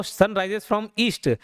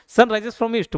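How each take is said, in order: First: Sun rises from east, stretched word by word; very slow dictation. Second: Said in the usual way. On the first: Shown as a demonstration. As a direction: dictate it slowly for notes. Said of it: "ये east कर लेना इसको". (बहुत धीरे लिखवाया गया वाक्य) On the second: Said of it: "बोले सर".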